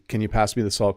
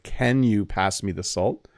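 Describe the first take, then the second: First: The sentence is said quickly and run together. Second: The sentence is said at a normal pace.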